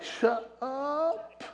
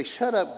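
First: Soft, high, stretched "up" rising in amazement; stunned, half-whispered "no way"; disbelief. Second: Mock stern dismissal. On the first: Retold or imitated. Preacher reacting to the stranger's word, softly amazed and high. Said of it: "And I'm like". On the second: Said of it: "And she'd say".

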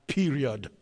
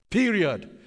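First: Said in the usual way. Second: "Period." said higher and louder as a hammer blow; emphatic Period. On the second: Shown as a demonstration. Preacher repeats the final word to the congregation, punched. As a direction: slam down "Period.".

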